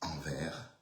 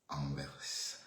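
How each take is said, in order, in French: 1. Le mot se termine sans son s. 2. Le mot se termine par un son s. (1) "En France, on dit envers" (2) "En Belgique, on dit enverse"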